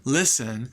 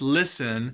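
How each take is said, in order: No difference in how they are said.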